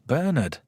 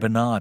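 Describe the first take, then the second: First: The name is said with a British pronunciation. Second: The name is said with an American pronunciation. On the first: The speaker calls it right. "It's Bernard" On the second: The speaker calls it wrong. "Why do Americans say Bernard?"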